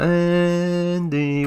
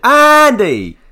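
First: The name is said in a creepy way. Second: The name is shouted loudly.

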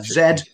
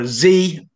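First: The letter is said as zed. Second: The letter is said as zee.

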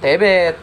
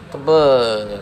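First: The e vowel is straight, Medan style. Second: The e vowel is pinched, not Medan style.

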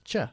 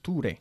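First: The ending is said with a 'ch' sound. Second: The ending is said with a plain t, 'toor'. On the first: The speaker calls it right. "It's ch, like picture" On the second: The speaker calls it wrong. "Not ture"

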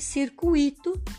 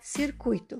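First: The 'ui' is split, stressing the 'i'. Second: The 'ui' forms one stressed syllable. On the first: The speaker calls it wrong. "estão incorretas" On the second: The speaker calls it right. "porque o correto é circuito"

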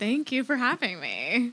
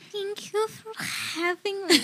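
First: The voice is the speaker's own natural voice. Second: The voice is a put-on, delicate, girly voice. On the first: "This is my normal voice" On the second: "we're doing hot girl voice"

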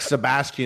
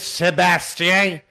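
First: The name is said with a plain English pronunciation. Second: The name is said with a French pronunciation. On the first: "Instead of just being like Sebastian" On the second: "it's like it goes in on the French"

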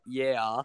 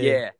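First: It ends with a clear 'ah' sound. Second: It is said the Australian way, without that ending.

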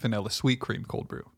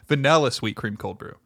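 First: The stress falls on a word other than vanilla. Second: The stress falls on the word vanilla.

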